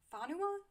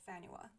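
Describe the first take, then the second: First: Fanua as FAH-noo-uh, rising high into a question; unsure alternative pronunciation. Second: Fanua with a flat "a" as in "fan", a "nyoo" glide; first pronunciation. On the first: Reviewer unsure of an island's name, Fanua asked as FAH-noo-uh. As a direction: try "Fanua" with a broad "ah", questioning. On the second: Reviewer naming a made-up island, Fanua said FAN-yoo-uh. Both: Shown as a demonstration. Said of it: "I don't know how to pronounce it".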